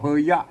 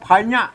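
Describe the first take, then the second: First: The first syllable is said as phoei. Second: The first syllable is said as phai. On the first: This is the Thai reading. "ถ้าเป็นไทยอ่าถ้าเป็นไทยเพิ่นอ่านว่าเพย" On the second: This is the Pali reading. "ไม้ไก่บาลีนะครับ"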